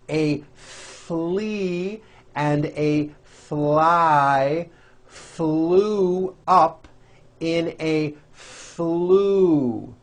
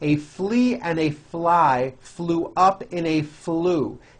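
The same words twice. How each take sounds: First: It is said slowly. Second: It is said faster.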